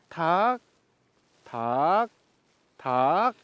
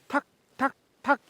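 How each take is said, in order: First: The taps come at a slower tempo. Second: The taps come at a faster tempo.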